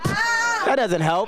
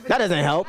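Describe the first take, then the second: First: High, slow exasperated shout. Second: Said in the usual way. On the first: Real, not acted. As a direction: yell it out, stretched and high.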